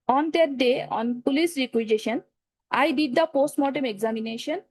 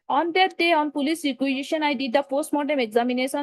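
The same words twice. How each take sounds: First: It is read slowly at steady volume. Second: It is read quickly, like a race. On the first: The speaker calls it right. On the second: The speaker calls it wrong.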